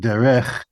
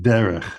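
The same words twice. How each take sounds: First: The stress is on the last syllable. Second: The stress is on the first syllable. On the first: The speaker calls it wrong. "I'm not saying derech" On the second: The speaker calls it right. "the accent is on the first syllable"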